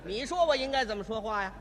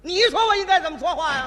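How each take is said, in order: First: Sarcastic retort. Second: Louder mocking retort. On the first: Acted. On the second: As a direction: repeat it louder with a laugh, mocking. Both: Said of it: "今天我就扮演这位售票员".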